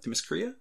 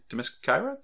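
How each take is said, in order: First: Themyscira with a REE-a ending; alternative pronunciation. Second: Themyscira with SKY in the middle; trying a pronunciation. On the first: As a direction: say Themyscira as them-i-skuh-REE-a, higher and softer. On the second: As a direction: say Themyscira as them-i-SKY-ra, questioning. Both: Shown as a demonstration. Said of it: "how do you say that".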